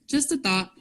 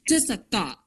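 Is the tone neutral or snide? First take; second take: neutral; snide. First: It is said in a plain, neutral tone. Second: It is said in a snide, mocking tone. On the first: This is what the writer meant. "I made a Facebook post and I and I said" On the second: This is how readers hear it. "people are gonna read it like this"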